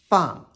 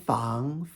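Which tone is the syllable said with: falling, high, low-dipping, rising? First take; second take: falling; rising. First: The pitch falls sharply from high to low. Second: The pitch rises from middle to high.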